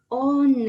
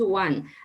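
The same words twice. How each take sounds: First: Every letter is sounded with Spanish values. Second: It is said with its English sounds. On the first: It is read as the letters look. The speaker calls it wrong. "they says one" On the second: It is the real English word. The speaker calls it right. "the pronunciation is one"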